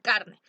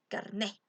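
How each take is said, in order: First: The stress is on the first syllable. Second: The stress is on the last syllable. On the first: It means meat. The speaker calls it wrong. "si no le pones tilde va a decir carne" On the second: It means an identity card. The speaker calls it right. "con tilde en la E"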